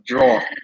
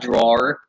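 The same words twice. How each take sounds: First: It sounds like one syllable, droor. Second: It sounds like two syllables, draw-er. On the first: This is how locals say it. "We say it as like D R O O R" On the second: This is not how locals say it. "not like D R A W E R"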